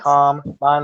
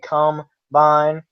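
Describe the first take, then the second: First: The stress is on the first syllable. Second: The stress is on the second syllable.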